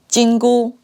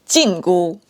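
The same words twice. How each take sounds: First: Jingu is said with the tones for golden. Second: Jingu is said with the tones for prohibition. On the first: It names the golden band. "The golden band" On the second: It names the prohibition band. "the prohibition band"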